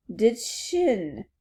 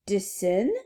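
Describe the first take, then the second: First: "chin" with a clear ch sound; correct chin. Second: "sin" with s in place of ch; mispronounced chin. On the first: Alice teaching the word, "chin" with ch. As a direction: give "De chin" as the model word. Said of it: "De sin?". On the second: Princess echoing Alice, "sin" for chin. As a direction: echo chin wrongly as "De sin", questioning. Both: Acted.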